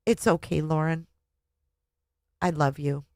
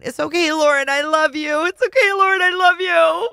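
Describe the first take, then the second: First: Soft and quiet, falling; quietly comforting her own reflection; gentle self-comfort. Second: Squeaky, much higher and louder mock voice; host mocking the author's mirror talk; mocking imitation. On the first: Acted. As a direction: soothe yourself softly. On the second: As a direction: parody her self-comfort, hammed up. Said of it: "having her looking in the mirror going".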